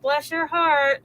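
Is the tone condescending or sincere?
condescending. It sounds sweetly mocking and disapproving. The speaker pities and looks down on the listener. "you poor idiot behind it"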